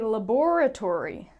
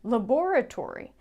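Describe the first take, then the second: First: It is said in a British accent. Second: The same.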